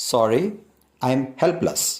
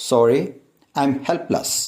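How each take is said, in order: Both takes have the same delivery.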